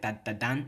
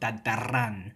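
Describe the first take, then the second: First: The consonant before the last syllable is d. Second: The consonant before the last syllable is r. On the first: The speaker calls it wrong. "It doesn't sound right" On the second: The speaker calls it right. "that da changes to a ra"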